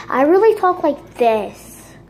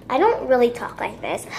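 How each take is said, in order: First: Said in the usual way. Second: Put-on voice. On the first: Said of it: "So I'm gonna use this voice". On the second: Shown as a demonstration. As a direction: say it in a fake everyday voice. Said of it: "use this voice".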